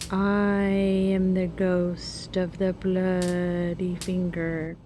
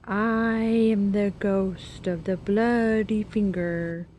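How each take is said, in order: First: It is said faintly and quietly. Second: It is said somewhat louder.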